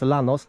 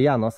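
First: The name begins with a plain L sound. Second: The name begins with a Y-like sound. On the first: This is the speaker's personal reading, like a car model. "ale ja to czytam Los Llanos" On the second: This is probably the proper local reading. "czyta się pewnie Janos"

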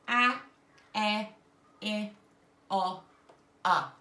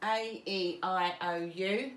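First: Each vowel is said as its short sound. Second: Each vowel is said as its long letter name. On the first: These are the short vowel sounds. "the short sound is" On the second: These are the long vowel sounds. "that's the long sound"

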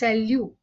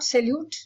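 First: The final t is left silent. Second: The final t is clearly pronounced. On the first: The speaker calls it right. "it is salut" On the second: The speaker calls it wrong. "It is not salute"

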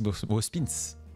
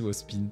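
First: The name ends with a final S sound. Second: The name ends without a final S sound.

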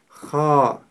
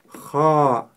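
Both takes have the same delivery.

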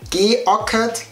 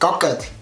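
First: The vowel after the g is pronounced. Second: The vowel after the g is dropped.

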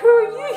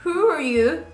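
First: It sounds amazed and admiring. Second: It sounds puzzled and unimpressed.

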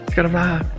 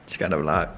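First: It is said with high energy. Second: It is said with low energy.

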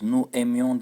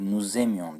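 First: The two words are said without a linking z. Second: A z sound links the two words. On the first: The speaker calls it wrong. "değil" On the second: The speaker calls it right. "diyeceğiz"

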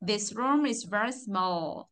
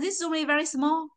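First: The final l of 'small' is clearly pronounced. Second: The final l of 'small' is not clearly pronounced. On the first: The speaker calls it right. "Nó là" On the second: The speaker calls it wrong. "Mình không nói là"

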